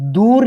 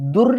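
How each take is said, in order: First: The u vowel is long. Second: The u vowel is short. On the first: The speaker calls it wrong. "दूर् इति न" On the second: The speaker calls it right. "दकारोत्तरस्य उकारस्य न दीर्घः"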